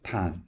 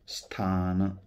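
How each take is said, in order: First: The word begins directly with a th sound. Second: The word begins with an s sound. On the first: The speaker calls it wrong. "तो थान म्हणू लागला" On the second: The speaker calls it right. "आता स्थान हा शब्द आहे"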